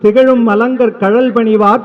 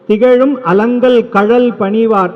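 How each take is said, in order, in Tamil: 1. சொற்கள் வேகமாகச் சொல்லப்பட்டு ஒன்றோடொன்று சேர்ந்து ஒலிக்கின்றன. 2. சொற்கள் இடைவெளியுடன் தனித்தனியாகச் சொல்லப்படுகின்றன. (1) "வேக வேகமாக சொல்லும் போது இதுவாகும்" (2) "சொல் பிரித்து சொல்லும்போது"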